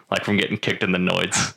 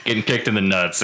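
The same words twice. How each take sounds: First: Noise said for nuts; from getting kicked in the noise, with noise for nuts; slip of the tongue. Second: Said in the usual way. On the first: Real, not acted. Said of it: "In the noise". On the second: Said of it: "the noise".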